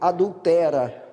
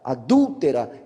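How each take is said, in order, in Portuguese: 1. A tônica não cai em dul. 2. A tônica cai na segunda sílaba, dul. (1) "ele leu adultera" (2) "colocar o acento agudo no U"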